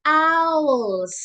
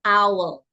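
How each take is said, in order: First: "owls" louder and higher, the final s leaned on; teacher stressing the plural "owls"; plural owls stressed. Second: "owl" said as one clear syllable; teacher stressing "owl" for one bird; singular "owl". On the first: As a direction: punch the s of "owls". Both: Shown as a demonstration. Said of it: "you say".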